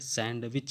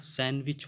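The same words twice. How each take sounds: First: The d sound is clearly pronounced. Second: The d sound is left out. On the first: The speaker calls it wrong. "सैंडविच नहीं होगा" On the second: The speaker calls it right. "डी को silent कर देंगे"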